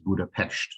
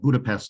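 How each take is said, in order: First: The final consonant is pronounced as sh. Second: The final consonant is pronounced as s. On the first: This is how native speakers say the name. "the Hungarian pronunciation for the city is Budapest" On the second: This is how foreigners usually say the name. "you will often hear it called Budapest just because um, international people"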